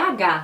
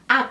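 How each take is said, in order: First: The letter is named the Portuguese way. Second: The letter is named the Spanish way. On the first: "é H no português" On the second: "o H no espanhol, ele é pronunciado como H"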